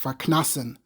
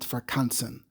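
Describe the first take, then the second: First: The middle syllable is said as 'knas'. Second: The middle syllable is said as 'kans'. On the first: The speaker calls it right. "it's probably pronounced farknasen" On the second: The speaker calls it wrong. "and not farkansen"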